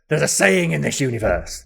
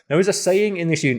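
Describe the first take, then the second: First: It is said in Lord Zed's put-on voice. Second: It is said in the speaker's own voice.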